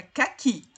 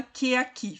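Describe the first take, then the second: First: "caqui", que and aqui fused into two syllables; com elisão. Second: "que aqui" as two separate vowels, "quê-aqui"; sem elisão. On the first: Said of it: "Fica caqui". ("caqui" emendado, engolindo o E de que) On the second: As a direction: keep the E of que apart from the A in "que aqui". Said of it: "Ninguém fala que aqui". ("que aqui" separado, sem juntar as vogais) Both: Shown as a demonstration.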